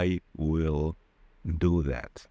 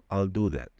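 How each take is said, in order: First: The word will is said fully as its own syllable. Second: The word will is shortened and joined onto I. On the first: The speaker calls it wrong. "rzadko kiedy Anglicy czy Amerykanie powiedzą" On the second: The speaker calls it right. "skrócą maksymalnie to słowo"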